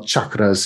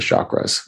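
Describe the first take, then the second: First: The word is pronounced the Indian way. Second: The word is pronounced the local way. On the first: "chakras in uh, in Indian" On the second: "but we all say chakras here"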